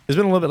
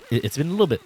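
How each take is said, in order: First: "It's been a little bit" said again higher and louder; emphatic repeat. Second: Said in the usual way. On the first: Real, not acted.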